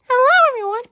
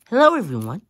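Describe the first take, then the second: First: It is said in a higher voice. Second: It is said in a lower voice.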